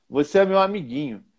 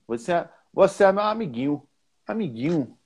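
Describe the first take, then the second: First: Said in the usual way. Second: Bahian "amiguinho" with no nh, ending "-ĩu"; higher Bahian lilt, "amiguinho" as "amigĩu"; Bahian accent. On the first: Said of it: "No Rio fala assim". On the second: Shown as a demonstration. Teacher contrasting Rio with Bahia, Bahian accent on "amiguinho". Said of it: "na Bahia fala assim".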